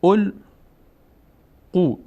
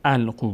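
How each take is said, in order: First: "القو" begun with o, as "ol-qu"; misprinted damma reading. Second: "القو" begun with a, as "al-qu"; corrected fatha reading. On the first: Teacher reads the misprinted exercise, slow "ol-qu" for "القو". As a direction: sound out "القو" slowly with an o at the start. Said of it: "اینجا ضم فتحه اشتباه شده". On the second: Teacher corrects the misprint, "al-qu" with initial a for "القو". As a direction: open "القو" on a short a, not o. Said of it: "القو باید باشه". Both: Shown as a demonstration.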